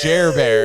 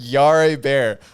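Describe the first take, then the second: First: The name begins with a J sound. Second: The name begins with a Y sound. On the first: The speaker calls it right. "It's Jer Bear" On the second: The speaker calls it wrong. "how Alexa pronounces"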